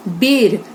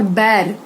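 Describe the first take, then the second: First: बेर with a closed long E; E vowel. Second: बैर with an open AE; AI vowel. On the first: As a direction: say बेर like 'bare'. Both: Shown as a demonstration. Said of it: "उच्चारण पर ध्यान दीजिए".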